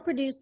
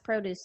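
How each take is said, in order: First: The stress is on the second syllable. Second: The stress is on the first syllable. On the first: It is a verb meaning to make. "and the verb second" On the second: It is a noun meaning fresh fruit and vegetables. "I'll say the nouns first"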